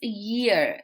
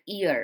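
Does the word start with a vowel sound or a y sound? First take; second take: y sound; vowel sound. First: The word starts with a y sound. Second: The word starts with a vowel sound. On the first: The speaker calls it right. "It's year. There is a sound of year" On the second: The speaker calls it wrong. "We think the pronunciation of this word is ear"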